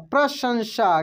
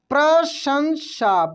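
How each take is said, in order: First: Said in the usual way. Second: प्रशंसा slowed syllable by syllable; slow spelling-out. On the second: Shown as a demonstration. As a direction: sound out प्रशंसा slowly. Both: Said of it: "क्या पढ़ेंगे?".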